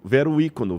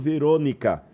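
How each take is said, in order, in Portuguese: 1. É pronunciado como duas palavras separadas. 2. É pronunciado como uma palavra só, unida. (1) "em latim vero icono" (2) "uma corruptela da palavra"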